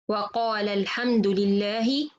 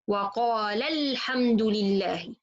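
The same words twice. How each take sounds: First: The lam of qala has no extra emphasis. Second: The voice rises and stresses the lam of qala. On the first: One person said it. "it's give me there is one person he said Alhamdulillah" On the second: Two persons said it. "I will raise my voice in the letter lam here a little bit"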